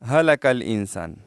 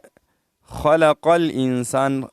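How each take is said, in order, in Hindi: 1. पहला शब्द सादे ह से शुरू होता है। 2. पहला शब्द खरखरे ख़ से शुरू होता है। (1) "लोग पढ़ते हैं अक्सर हलकल इंसान, हा का ध्यान नहीं रखते" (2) "इसके बाद है खलकल इंसान"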